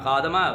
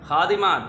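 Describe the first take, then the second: First: The syllable after the d has an 'a' vowel. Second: The syllable after the d has an 'i' vowel. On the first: The speaker calls it wrong. "दाल पर ज़बर डालकर हम बोलते हैं ... खादमा गलत है" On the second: The speaker calls it right. "दाल के नीचे जेर है"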